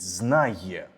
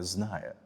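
First: The y-glide before the last vowel is clearly pronounced. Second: The y-glide before the last vowel is blurred away. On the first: The speaker calls it right. "Утровано вимовляти йотовані літери" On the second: The speaker calls it wrong. "а не «знає»"

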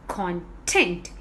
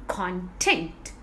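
Both takes have the same delivery.

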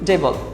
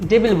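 First: The second syllable has a reduced, weak vowel. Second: The second syllable has a full 'i' vowel. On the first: The speaker calls it right. "এর সঠিক pronunciation হচ্ছে ডেবল" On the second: The speaker calls it wrong. "অনেক শিক্ষার্থী ভুল করে ডেবিল বলে"

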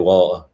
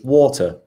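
First: It is said in a Manchester accent. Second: It is said in a posh British accent. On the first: "If you're from Manchester, you just say water" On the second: "if you're proper posh British, it's water"

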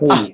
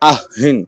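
First: The word ends without any n sound. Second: The word ends with a final n sound. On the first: The reader stops on this word. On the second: The reader keeps going without stopping.

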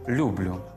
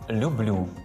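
First: The stress is on the first syllable. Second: The stress is on the second syllable. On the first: The speaker calls it wrong. "Помилковим є наголошування" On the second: The speaker calls it right. "правильно наголошувати ці дієслова так"

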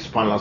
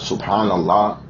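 First: It is said quickly, rushed together. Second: It is said slowly and clearly.

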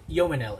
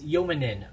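First: The name ends with an L sound. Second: The name ends with an N sound. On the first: The speaker calls it wrong. "it's not Yomanil" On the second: The speaker calls it right. "it's Yomanin"

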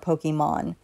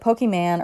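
First: The last syllable sounds like 'mon'. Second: The last syllable sounds like 'man'.

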